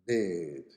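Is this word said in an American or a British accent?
American. It is said with a longer American vowel. "bed in America"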